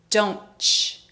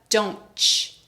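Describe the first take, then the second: Both takes have the same delivery.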